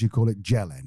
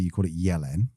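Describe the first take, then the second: First: The name is pronounced as in English. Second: The name is pronounced as in Bosnian. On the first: "And in English, you call it Jelen" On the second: "in Bosnia, I think, and Croatia and Serbia, you call it Jelen"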